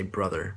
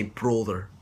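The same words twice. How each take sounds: First: "brother" lower, with an "uh" vowel; American "brother", short open first vowel; American pronunciation. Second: "brother" with a long oo-like vowel; Scottish "brother", rounded first vowel; Scottish pronunciation. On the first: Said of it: "Then in American, when you say brother". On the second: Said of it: "take a few minutes to say brother". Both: Shown as a demonstration.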